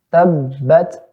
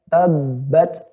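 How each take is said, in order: Both takes have the same delivery.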